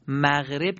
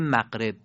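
First: Said in the usual way. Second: مغرب with a hard q for the gh, "maqreb"; colloquial Persian qaf. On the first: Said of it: "مغرب که با غینه". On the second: Shown as a demonstration. («مغرب» با قاف به جای غین، «مَقرِب»)

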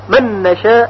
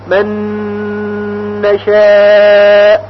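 First: من نشاء said quickly with no held nasal; plain quick reading of من نشاء; wrong, no ghunna. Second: من نشاء with full nasal merge; correct ghunna. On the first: Teacher shows students the wrong reading, rushed. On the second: Teacher gives students the correct reading, humming. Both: Shown as a demonstration. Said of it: "غلط هست".

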